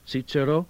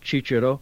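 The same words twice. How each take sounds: First: Cicero begins without a ch sound. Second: Cicero begins with a ch sound. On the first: "Some say C" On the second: "Or some say Ch"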